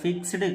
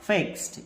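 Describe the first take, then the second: First: The word ends with a d sound. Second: The word ends with a t sound. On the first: The speaker calls it wrong. "ఫిక్స్డ్ కాదు" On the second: The speaker calls it right. "ట గా change అవుతుందని గుర్తుంచుకోవాలి"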